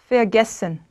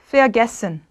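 Both takes have the same delivery.

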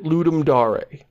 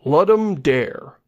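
First: It is read like a word from another language. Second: It is read the way English spelling suggests. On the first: "always pronounced it" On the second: "monolingual Anglophone like us would probably look at those words and go"

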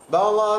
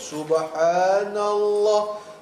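First: It is said very fast and slurred. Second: It is said slowly and carefully.

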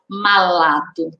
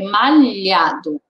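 First: The middle consonant is a plain L sound. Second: The middle consonant is a palatal LH sound. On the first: The speaker calls it wrong. "Eu não posso falar malado" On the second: The speaker calls it right. "É malhado"

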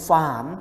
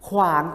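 First: The word starts with a plain f sound. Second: The word starts with a kw consonant cluster. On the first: This is the regional dialect pronunciation. "ก็จะออกเสียงเป็นฝานไม่พูดคำควบกล้ำ" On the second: This is the standard pronunciation. "คำว่าขวานเนี่ยขวาน"

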